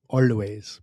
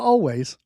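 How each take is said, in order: First: It is said in a Persian accent. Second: It is said in a plain accent.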